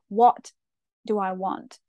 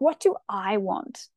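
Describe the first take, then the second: First: The word 'what' is stressed. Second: The word 'I' is stressed. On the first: "sometimes with emphasis on the what" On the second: "Emphasis on the I"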